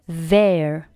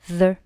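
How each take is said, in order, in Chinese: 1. 这个词读的是完整元音。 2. 这个词读的是弱读元音。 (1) "单独去读是读作their" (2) "但是弱读呢，我们可以读成the"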